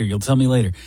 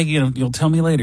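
First: Said in the usual way. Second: "tell" hit in a quick hush; fast hushing with "tell" stressed. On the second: Retold or imitated. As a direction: rush it, leaning on "tell". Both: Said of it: "Hey, hey, hey".

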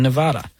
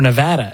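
First: Nevada said nuh-VAH-duh. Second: Nevada said nuh-VAD-uh; flat "a" as in "cat" in Nevada; Nevada with short a. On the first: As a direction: open "ah" in the middle of Nevada. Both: Shown as a demonstration. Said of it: "as they say".

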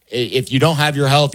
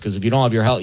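First: Louder repeat leaning on "don't"; stressed repeat. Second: Said in the usual way. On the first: Shown as a demonstration. Host hammering the lesson home, "don't" pressed loud. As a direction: punch "don't" harder the second time to land the point. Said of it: "you really only have one problem". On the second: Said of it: "you have a million problems".

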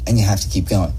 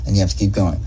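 The two takes are said the same way.

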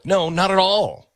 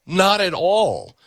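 First: Said in the usual way. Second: "Not at all" drawn out slowly, each word weighted; slow emphatic denial. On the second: Shown as a demonstration.

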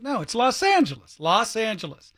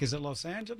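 First: "Los Angeles" as "lawss AN-juh-les"; open-vowel version, decided. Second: "Los Angeles" as "lohs AN-juh-les", soft question; long-O version, questioning. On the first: Host settling on their own version, open-vowel "Los Angeles". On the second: Host comparing two versions in their mind, long-O "Los Angeles". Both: Shown as a demonstration. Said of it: "comparing the two in my mind".

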